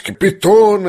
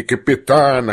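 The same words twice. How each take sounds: First: "Капитана" said as Капитона, stressed O; corrected name. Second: Said in the usual way. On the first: A narrator's reading. («Капитана» через ударное «о»: Капитона) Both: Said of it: "а не капитана".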